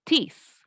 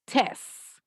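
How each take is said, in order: First: "This" with a forceful "ee" vowel, as "tees"; teacher's model "This", stressing the Spanish I; strong I. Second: "Test" as "tes", with a forceful "eh"; teacher's model "Test", stressing the Spanish E; strong E. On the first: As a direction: push the I in "This" into a clear "ee". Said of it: "hago más fuerza en la I". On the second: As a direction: push the E in "Test", no final T. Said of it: "hago más fuerza en la E". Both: Shown as a demonstration.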